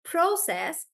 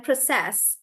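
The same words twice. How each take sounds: First: "Process" stressed on the first syllable, PRO-cess, drawn out; "Process" as a noun, long strong PRO. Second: "process" stressed on the last syllable, pro-CESS; short pro, strong CESS in "process"; verb stress. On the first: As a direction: slowly land on PRO in "Process". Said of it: "depending on whether we're using it". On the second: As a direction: say "process" as a verb, weight at the end. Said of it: "stress comes to the last part". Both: Shown as a demonstration.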